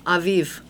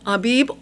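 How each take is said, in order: First: The middle consonant is a V sound. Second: The middle consonant is a B sound.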